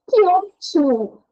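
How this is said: The phrase sounds joyful and excited. The speaker is glad and excited about something.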